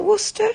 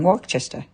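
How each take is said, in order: First: High, questioning "Worcester" as WUSS-tuh; corrected Worcester. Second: "Worcester" with a CHESTER ending, WORK-chester; mispronounced Worcester. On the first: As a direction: check "Worcester" in two syllables, WUSS-tuh. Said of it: "have I said it right again". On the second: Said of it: "it comes out wrong". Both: Real, not acted.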